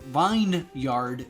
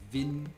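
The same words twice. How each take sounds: First: Every letter is sounded, like vine plus yard. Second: The word is reduced, sounding like vinyard. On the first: "says everything" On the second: "but vineyard"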